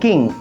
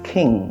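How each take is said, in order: First: The first k is plain, without a puff. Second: The first k is aspirated with a puff. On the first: The speaker calls it wrong. "যেখানে বলতেন কিং" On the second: The speaker calls it right. "এখন বলেন খিং"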